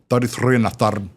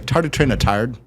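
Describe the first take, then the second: First: It is said in a Scottish accent. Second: It is said in an Irish accent.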